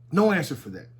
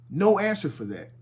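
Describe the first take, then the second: No difference in how they are said.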